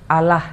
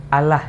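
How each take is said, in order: No difference in how they are said.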